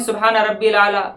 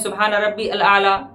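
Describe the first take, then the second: First: Rabbi runs into al as one short rabbil. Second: Rabbi and al are said as separate words. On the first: "बाज़ लोग ये पढ़ते हैं ... जो कि गलत है" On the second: "या कुछ लोग पढ़ते हैं ... जो कि गलत है"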